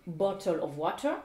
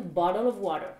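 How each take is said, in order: First: 'bottle of water' with clear T sounds. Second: 'bottle of water' with D-like T's; American "bottle" and "water", T's softened to D. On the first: Teacher contrasts British and American, crisp T in bottle, water. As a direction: pronounce the T's in "bottle" and "water" as true T. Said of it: "pas se prononcer comme un T". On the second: Teacher contrasts the accents, bottle and water with D sounds. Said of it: "mais comme un D". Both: Shown as a demonstration.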